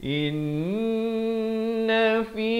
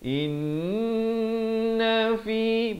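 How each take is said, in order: No difference in how they are said.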